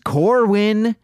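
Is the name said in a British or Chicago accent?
Chicago. It is said in a Chicago accent.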